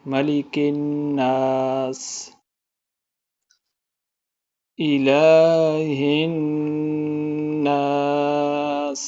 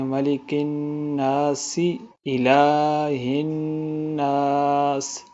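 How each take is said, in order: First: It stops briefly after nas. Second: It runs on without a pause.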